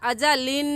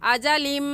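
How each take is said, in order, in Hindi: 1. आखिरी आवाज़ साफ़ n है। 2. n, दोहरे और नासिका वाले m में मिल जाता है। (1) "यहाँ पर अजलिन नहीं कहना" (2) "इस्लाम को मीम के साथ मिलाना है। ऐसे पढ़ना है"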